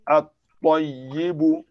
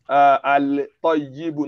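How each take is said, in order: First: The L is silent and the T is doubled. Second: The L is clearly pronounced before the T. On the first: The speaker calls it right. "we are not going to pronounce that Lam" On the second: The speaker calls it wrong. "not al-toyibu"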